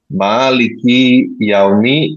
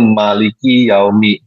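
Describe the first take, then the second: First: The first vowel of maliki is long. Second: The first vowel of maliki is short. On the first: It means the owner of the day. "qiraat Hafs memiliki alif yang panjang" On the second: It means the king of the day. "wars qiraat adalah kata benda nomina yang berarti raja"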